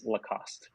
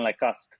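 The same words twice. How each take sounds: First: The name is said with an English pronunciation. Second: The name is said with a French pronunciation. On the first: This is how it is said for English speakers. "for an English audience, it is" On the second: This is how the speaker's French-origin family says it. "when I'm with them, it's uh, it certainly is"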